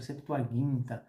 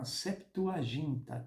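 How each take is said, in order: First: The g is hard, like in 'go'. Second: The g is soft, like a 'zh' sound. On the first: The speaker calls it right. "que na verdade se pronuncia Septuaginta" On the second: The speaker calls it wrong. "esse som de G não existe em grego"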